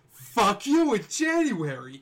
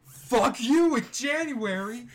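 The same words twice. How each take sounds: First: Slow loud catchphrase; shouted catchphrase. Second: Slow high shouted slogan; shouted catchphrase. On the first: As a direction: bellow it out slowly. Catchphrase repeated. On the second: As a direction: bellow the catchphrase. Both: Acted.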